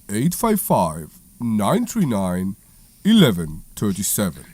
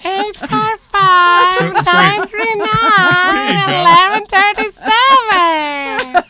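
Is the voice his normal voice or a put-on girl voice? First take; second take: normal; girl voice. First: It is said in his normal voice. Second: It is said in a put-on girl voice.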